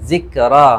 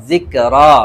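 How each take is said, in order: Both takes have the same delivery.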